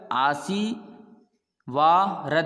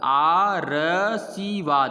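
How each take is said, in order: First: The r sound comes just before the final d. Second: The r sound comes right after the first vowel. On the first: "आशीवारद हो गया" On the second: "आरसीवाद ये गलत है"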